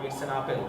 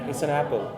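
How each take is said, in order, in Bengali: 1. Apple পুরনো স্থানীয় উচ্চারণে বলা হয়েছে। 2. Apple স্ট্যান্ডার্ড ইংরেজি উচ্চারণে বলা হয়েছে। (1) "আমরা বলতাম ইটস অ্যান আপেল" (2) "এটার আসল উচ্চারণটা কি?"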